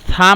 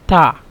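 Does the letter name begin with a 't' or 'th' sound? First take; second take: th; t. First: It begins with a soft 'th' sound. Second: It begins with a hard 't' sound. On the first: This is the standard Arabic pronunciation. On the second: This is the Egyptian dialect pronunciation.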